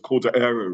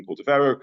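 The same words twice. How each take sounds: First: "Cordeiro" run together without a V; Portuguese pronunciation. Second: Said in the usual way. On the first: Shown as a demonstration. Lecturer showing how Portuguese altered the surname, Portuguese pronunciation. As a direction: say "Cordeiro" with the middle V sound dropped. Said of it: "in Portuguese it became almost Cordeiro". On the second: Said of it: "rather than Cordovero".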